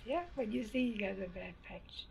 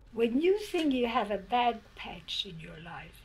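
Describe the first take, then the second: First: Much softer, quieter restatement of bad patch; softer repeat. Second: Said in the usual way. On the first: Shown as a demonstration. Repeating her lesson to the interviewer, softer. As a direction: say it again, gently and low. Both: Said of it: "repeats the phrase".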